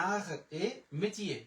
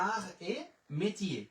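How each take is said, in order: The two takes are said the same way.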